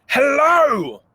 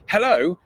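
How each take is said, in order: First: Much higher and louder "hello", full of energy; energetic hello. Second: Said in the usual way. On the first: Shown as a demonstration. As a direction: throw real energy into "hello". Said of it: "just so much energy behind it". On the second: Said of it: "it's not just".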